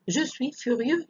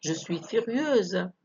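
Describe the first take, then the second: First: Furieux ending on the eu vowel, x silent; masculine ending. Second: Slow, stretched furieuse ending in z; feminine ending. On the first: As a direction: finish furieux cleanly on eu, no consonant. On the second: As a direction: sound the s of furieuse as a long z. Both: Shown as a demonstration. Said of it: "لو كنت ولد".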